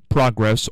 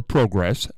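First: Progress with a short first vowel, PRAH-gress; variant pronunciation. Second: Progress with a long o, PROH-gress; rounded "oh" in the first syllable of progress; alternative pronunciation. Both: Shown as a demonstration. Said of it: "however you wanna say it".

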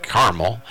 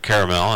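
First: "caramel" squeezed into two syllables, CAR-mul; own pronunciation. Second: "caramel" in three syllables, KAIR-uh-mel; Scott's pronunciation. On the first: Shown as a demonstration. Host showing their own two-syllable pronunciation of "caramel". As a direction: say "caramel" as "carmel", first vowel as in "car". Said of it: "and I pronounce it caramel". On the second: Retold or imitated. Host quoting a colleague's three-syllable pronunciation of "caramel". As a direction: say "caramel" with first vowel as in "care". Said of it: "Scott was pronouncing it caramel".

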